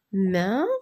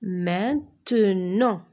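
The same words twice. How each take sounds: First: "Maintenant" as main, te, nant with long pauses; widely separated syllables. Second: "Maintenant" slow, syllables run closely together; syllables joined slowly. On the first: Teacher forming words from syllables, widely separated syllables. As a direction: sound out "Maintenant", waiting after each syllable. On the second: Teacher turning syllables into a word, syllables joined slowly. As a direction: blend "Maintenant" into one measured word. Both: Shown as a demonstration. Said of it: "Je forme des mots avec des syllabes".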